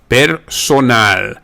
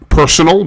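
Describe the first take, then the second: First: It is said with Spanish sounds. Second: It is said with English sounds.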